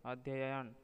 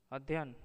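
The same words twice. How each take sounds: First: Said in the usual way. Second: अध्ययन shortened to "adhyan"; अध्ययन squeezed into two syllables; wrong pronunciation. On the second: Shown as a demonstration. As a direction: drop a syllable from अध्ययन, saying "ad-yan". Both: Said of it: "अशुद्ध, शुद्ध".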